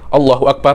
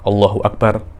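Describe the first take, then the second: First: It is said hurriedly and repeated without pausing. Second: It is said, then followed by a pause. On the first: The movements run together without stillness. The speaker calls it wrong. "tidak boleh Allahu Akbar, Allahu Akbar, macam itu tidak" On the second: The body settles before the next movement. The speaker calls it right. "diam dulu"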